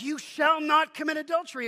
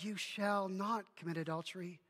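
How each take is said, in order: First: It is said as a stern command. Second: It is said as a reassuring promise.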